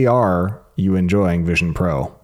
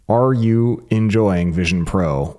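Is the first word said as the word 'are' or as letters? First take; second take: letters; are. First: The first word is spelled out as letters A-R. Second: The first word is said as the word 'are'. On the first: The speaker calls it right. "He says read it as AR" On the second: The speaker calls it wrong. "I read them incorrectly"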